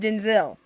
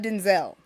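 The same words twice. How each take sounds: First: The last syllable sounds like 'zil'. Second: The last syllable sounds like 'zel'. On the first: The speaker calls it right. "So his name is Denzel" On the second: The speaker calls it wrong. "not Denzel"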